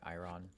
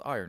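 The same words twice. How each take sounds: First: The word is pronounced in a silly, unusual way. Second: The word is pronounced in the ordinary way. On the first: The speaker calls it wrong. "I'm being silly" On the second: The speaker calls it right. "it's actually pronounced iron"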